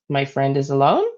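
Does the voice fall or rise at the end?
rise. The voice rises at the end.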